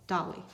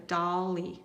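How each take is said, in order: First: Said in the usual way. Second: "dolly" stretched into doll-ee, two clear beats; syllable by syllable. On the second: Shown as a demonstration. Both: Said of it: "Put it together".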